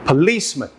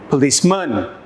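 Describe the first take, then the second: First: The stress is on the second syllable. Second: The stress is on the third syllable. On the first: The speaker calls it right. "the second option should feel like the correct option" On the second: The speaker calls it wrong. "try each option"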